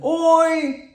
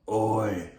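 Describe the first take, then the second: First: OI held high and even; high level tone. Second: OI held low and drawn out. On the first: Showing the two-capitals spelling, OI on a high level tone. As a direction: sustain OI on one high note. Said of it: "would be like two capital letters". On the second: Showing the lowercase spelling, OI in a low drawn-out tone. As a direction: keep OI down low and long. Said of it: "would be like lowercase". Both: Shown as a demonstration.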